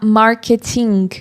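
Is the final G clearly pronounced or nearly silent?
clearly pronounced. The final G is pronounced clearly at the end. This is the Brazilian way of saying it. The speaker calls it wrong. "a gente não vai falar marketing, não"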